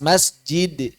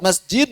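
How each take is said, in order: First: The final consonant is released with a bounce. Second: The final consonant is held without release. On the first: The speaker calls it right. "yang ringan dilepas" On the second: The speaker calls it wrong.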